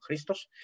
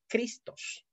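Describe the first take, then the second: First: "Cristos" said with a rasping j sound at the start, like "Jristos"; "Cristos" with the Greek chi, like a Spanish j. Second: "Cristos" with a hard K at the start, as in Spanish; "Cristos" said the Spanish way, hard K then R; Spanish pronunciation. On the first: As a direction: start "Cristos" with a throaty Spanish jota instead of K. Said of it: "con ji se escribe Cristo". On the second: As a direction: say "Cristos" plainly with a crisp K sound. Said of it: "nosotros en español decimos". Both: Shown as a demonstration.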